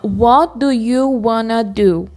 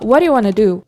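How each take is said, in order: First: Each word is said separately and carefully. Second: The words are run together quickly.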